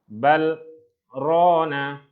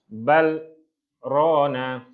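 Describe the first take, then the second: No difference in how they are said.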